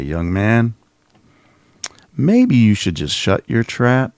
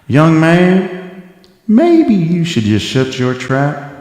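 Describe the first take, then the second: First: It is said in a normal, unaccented voice. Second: It is said in a put-on Southern accent.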